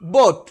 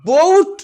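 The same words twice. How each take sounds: First: The vowel is kept short. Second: The vowel is stretched out long. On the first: The speaker calls it right. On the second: The speaker calls it wrong.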